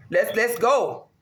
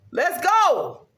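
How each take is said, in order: First: Drawn-out let's go; slow build-up. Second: Hype shout. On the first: To herself before the sacrifices, a slow warm-up chant. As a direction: ease into the hype slowly. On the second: To herself before the sacrifices, a pumped-up cry. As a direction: fire yourself up. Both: Real, not acted.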